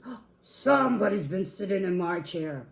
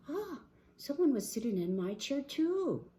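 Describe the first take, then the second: First: Loud, indignant big bear; Papa Bear. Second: High, dismayed bear voice; gasp, then higher dismay; Mama Bear. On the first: Papa Bear at his chair, indignant boom. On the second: Mama Bear at her chair, high dismay. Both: Acted.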